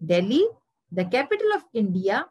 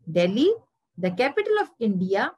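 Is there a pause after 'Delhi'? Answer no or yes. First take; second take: yes; yes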